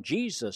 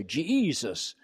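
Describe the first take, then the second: First: Said in the usual way. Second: "Jesus" stretched into three syllables, Je-e-sus; radio preacher Jesus. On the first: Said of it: "You have to say that". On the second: Shown as a demonstration. Mocking radio preachers, "Jesus" drawn into three syllables. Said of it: "with three syllables if you're on the radio".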